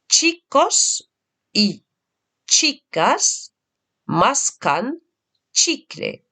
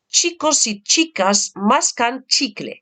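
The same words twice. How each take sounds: First: It is said slowly and carefully. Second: It is said at the quickest pace.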